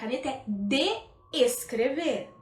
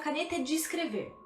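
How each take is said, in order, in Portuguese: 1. A palavra 'de' é pronunciada com a vogal 'eh'. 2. A palavra 'de' é pronunciada com a vogal 'ee'. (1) "seria a caneta é de escrever. Só que a gente não fala assim" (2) "dá a entender que a gente tem um D I aí"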